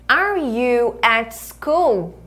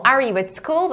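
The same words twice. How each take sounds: First: Very slow, drawn-out teacher demo; slow-motion classroom question; model for repeating. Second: Said in the usual way. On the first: Shown as a demonstration. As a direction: stretch each word for learners to copy. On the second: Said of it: "Então".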